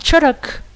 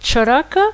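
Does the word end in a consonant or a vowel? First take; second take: consonant; vowel. First: The word ends with the final vowel dropped. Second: The word ends with a full final vowel. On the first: "on dit Charak" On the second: "Au lieu de dire Charaka"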